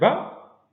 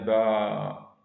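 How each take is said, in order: First: The vowel is short. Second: The vowel is held twice as long. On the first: "juste avec la voyelle symbole" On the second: "si on ajoute la madda, ça devient"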